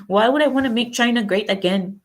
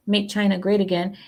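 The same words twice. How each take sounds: First: Light mock Chinese accent, pitched higher; attempted Chinese accent. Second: Said in the usual way. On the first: Mimicking a Chinese objector to the slogan, attempted Chinese accent. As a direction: try on a rough Chinese accent. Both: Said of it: "I shouldn't try to do accents".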